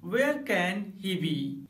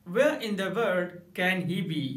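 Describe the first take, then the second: First: Said in the usual way. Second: Slow "Where in the world can he be?", stress on "Where"; emphatic. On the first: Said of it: "normal तरीके से आप कहेंगे". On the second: Shown as a demonstration. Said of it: "जोर देकर बोलें". ("Where in the world can he be?" ज़ोर देकर)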